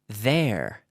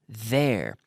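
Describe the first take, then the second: Both takes have the same delivery.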